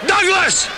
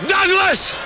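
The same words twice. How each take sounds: The two takes are said the same way.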